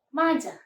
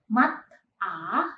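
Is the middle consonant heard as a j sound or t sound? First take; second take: j sound; t sound. First: A j sound links smoothly into the second syllable. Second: A t sound ends the first syllable, then a break. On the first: The speaker calls it right. "melainkan maja" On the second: The speaker calls it wrong. "Jadi bukan mat a"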